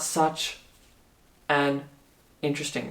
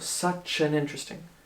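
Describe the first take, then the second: First: Each word is said separately, with breaks. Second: The words run together without any breaks. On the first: The speaker calls it wrong. "it's not" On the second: The speaker calls it right. "it's all linked together"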